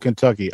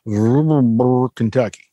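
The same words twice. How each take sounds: First: The word is said in a plain, standard way. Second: The word is mumbled thickly, like a local drawl. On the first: The speaker calls it wrong. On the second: The speaker calls it right.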